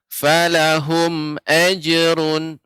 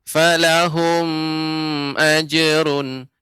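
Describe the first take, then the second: First: The sound at 'hum' is kept short. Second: The sound at 'hum' is drawn out long. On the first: The speaker calls it right. "Yang benar" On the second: The speaker calls it wrong. "Tadi Bapak bacanya lebih panjang"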